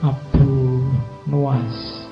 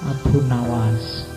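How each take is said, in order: First: The second word has a 'u' after N. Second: The second word has an 'a' after N. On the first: This is the original form of the name. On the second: This is the easier Indonesian form of the name.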